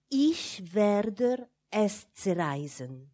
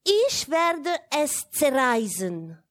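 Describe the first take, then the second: First: Slow German words with hissed consonants; hissing German threat. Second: Slow, louder and higher German declaration; loud German threat. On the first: A narrator's reading. Child secretly threatening the silk, slow hissing German. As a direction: let zerreißen hiss, drawn out slowly. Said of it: "Le mot zerreißen rend un son sifflant, féroce". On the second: Acted. Child warning the governess, slow loud German vow. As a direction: proclaim it as a warning, drawn out. Child announcing the forbidden act.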